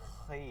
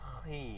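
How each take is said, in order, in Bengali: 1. kh ধ্বনিটি ভারী আর মোটা। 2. kh ধ্বনিটি ভারী আর মোটা।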